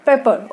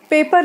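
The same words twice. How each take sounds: First: "पेपर" said as pepper, the right vowel; correct pronunciation. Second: "पेपर" said like paper, the wrong vowel; warning against saying "पेपर" like paper; wrong pronunciation. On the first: Teacher corrects students: "पेपर" said as pepper. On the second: Teacher warns students: "पेपर" said the wrong way. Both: Shown as a demonstration. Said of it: "पेपर नहीं friends".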